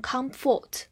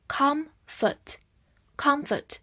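First: "comfort" with a full "fort" as second syllable; wrong full vowel. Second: "comfort" with stress on com and a reduced second vowel; weak second syllable. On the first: Teacher warns learners against this reading, "comfort" as KUM-FORT. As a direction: mispronounce "comfort" as KUM-FORT, ending not reduced. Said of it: "不要读成comfort". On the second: Teacher shows learners the weak ending, "comfort" as KUM-fət. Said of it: "所以后半部分是弱读". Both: Shown as a demonstration.

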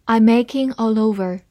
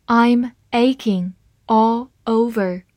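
First: Said in the usual way. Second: Slow reading. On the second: Shown as a demonstration. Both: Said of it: "好，慢慢来读。".

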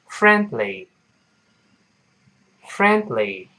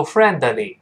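First: Slow "friendly" with a held, silent d; measured model of "friendly" in two syllables; lost plosion demo. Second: "friendly" wrongly as three syllables, fren-de-ly; bad example of "friendly" with the d fully released; mispronunciation demo. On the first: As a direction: pause on the d, then "ly" in "friendly". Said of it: "中间那个的就失去爆破了". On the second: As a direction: put an extra "de" inside "friendly". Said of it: "不要读friendly，不对". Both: Shown as a demonstration.

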